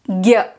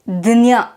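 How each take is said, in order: First: It is said as gya, with a g sound. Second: It is said as dnya, with a d sound first. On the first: This is how it is said in the north. "in the north they pronounce this as Gya" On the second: This is how it is said in Maharashtra. "in Maharashtra people pronounce it as Dnya. They add the D sound"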